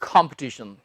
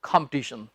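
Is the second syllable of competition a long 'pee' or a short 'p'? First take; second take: short; short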